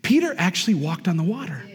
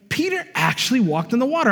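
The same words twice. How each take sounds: First: Said in the usual way. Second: Repeated higher, stressing water; emphatic repeat. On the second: Real, not acted. Preacher repeats it to the congregation, higher and emphatic. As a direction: lift it higher the second time to drive it home.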